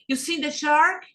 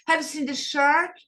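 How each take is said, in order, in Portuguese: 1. A palavra inicial 'have' é omitida por completo. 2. A palavra inicial 'have' é claramente pronunciada.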